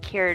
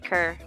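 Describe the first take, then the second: First: The syllable has a 'yoo' sound, like 'cure'. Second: The syllable has a plain 'er' sound, like 'cur'. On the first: The speaker calls it wrong. "Not cure" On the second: The speaker calls it right. "just cur"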